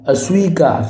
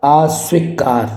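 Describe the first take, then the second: First: अस्वीकार with a short "a", long "ee"; correct short first vowel. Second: अस्वीकार with a drawn-out "aa" at the start; wrong long first vowel. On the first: Teacher gives the correct अस्वीकार, short opening "a". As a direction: say अस्वीकार as "a-sweekaar". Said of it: "अस्वीकार होगा शुद्ध". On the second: Teacher shows the wrong form of अस्वीकार, long opening "aa". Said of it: "अस्वीकार नहीं". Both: Shown as a demonstration.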